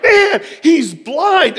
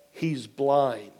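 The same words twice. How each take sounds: First: Loud, high, drawn-out yell with laughter; excited yelling. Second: Low, soft, matter-of-fact delivery; quiet reveal. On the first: Pastor astonished that guest is blind, excited yelling. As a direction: re-enact astonished yelling, stretch it out slowly. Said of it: "I was yelling". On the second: Nurse breaks the news to pastor, quiet reveal. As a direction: drop the voice, understated. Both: Retold or imitated.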